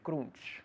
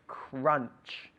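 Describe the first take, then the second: First: The vowel is said without lowering the jaw. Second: The vowel is said with the jaw lowered. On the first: The speaker calls it wrong. "we don't say crunch" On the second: The speaker calls it right. "it's crunch. Crunch, bajando la mandíbula"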